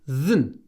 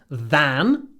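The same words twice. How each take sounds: First: The vowel is reduced to a weak schwa. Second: The vowel is full and clearly pronounced. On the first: "он говорит than" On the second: "Здесь он не говорит than"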